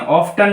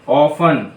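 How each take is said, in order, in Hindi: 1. बीच में t ध्वनि उच्चारित होती है। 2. बीच में t ध्वनि मौन होती है। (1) "ऑफ्टन नहीं पढ़ते" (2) "टी साइलेंट है यहां पर"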